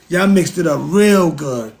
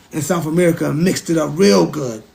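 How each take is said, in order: First: Slow, leaning on "real good"; slow emphatic. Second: Said in the usual way. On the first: Shown as a demonstration. Telling Europeans they mixed it up, slow and pointed. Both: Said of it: "repeats line for emphasis".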